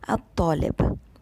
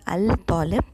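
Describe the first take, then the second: First: The l blends into the following consonant. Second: The l of the article is clearly pronounced. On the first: The speaker calls it right. "the lam is muted" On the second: The speaker calls it wrong. "It is not Al-Talib"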